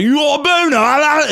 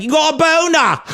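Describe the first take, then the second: First: High stuffed-nose mock yell; hammed-up stuffy-nosed schoolboy; blocked-nose voice. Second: High nasal-blocked mock voice of a kid; mock stuffed-up schoolboy shout; blocked-nose voice. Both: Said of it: "his nose was blocked".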